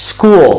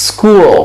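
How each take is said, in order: The two takes are said the same way.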